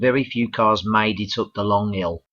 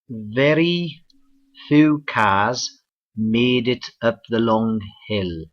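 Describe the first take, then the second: First: It is said in a Birmingham accent. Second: It is said in a Cardiff accent. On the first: "from Wales we go to Birmingham" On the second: "let's go across the border to Cardiff, Wales"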